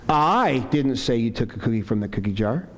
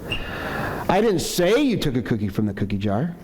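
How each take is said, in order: First: The word "I" carries the strongest stress. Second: The word "say" carries the strongest stress. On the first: Someone else said it. "Maybe implying somebody else said it" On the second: It was implied but not said aloud. "maybe I'm accusing you, but I haven't said it yet"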